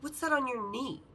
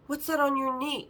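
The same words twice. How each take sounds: First: Said in the usual way. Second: Raised, insistent retold question. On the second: Repeats question after her "What?.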